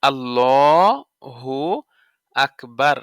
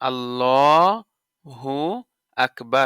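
Both takes have the same delivery.

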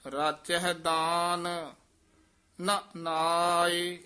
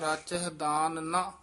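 First: A pause comes right after the word daan. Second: A pause comes right after the word na. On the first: They are absorbed in gifts and not in the Name. The speaker calls it right. "ਇਸ ਕਰਕੇ ਰਾਚਹਿ ਦਾਨ ਇੱਥੇ ਠਮਕ ਲਾ ਦੇਣੀ ਹੈ, ਫਿਰ ਬੋਲਣਾ ਨਾ ਨਾਏ" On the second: The meaning changes completely. The speaker calls it wrong. "ਜੇ ਇੰਜ ਬੋਲ ਦਿੱਤਾ ਰਾਚਹਿ ਦਾਨ ਨਾ, ਤਾਂ ਉਹਦਾ ਅਰਥ ਜ਼ਮੀਨ ਅਸਮਾਨ ਦਾ ਅੰਤਰ ਹੋ ਜਾਏਗਾ"

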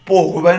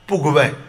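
First: The first vowel is a long 'o'. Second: The first vowel is a short 'u'. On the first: The speaker calls it wrong. "दीर्घ नहीं करना, भोगवै नहीं करना" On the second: The speaker calls it right. "लघु करो"

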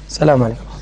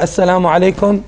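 First: It is said quietly. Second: It is said loudly.

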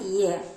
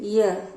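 First: It ends with a silent h. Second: The same.

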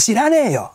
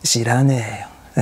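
First: The phrase is said loudly and strongly. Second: The phrase is said softly and weakly. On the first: "でっかい" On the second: "弱い"

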